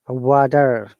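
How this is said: American accent, with an R sound at the end.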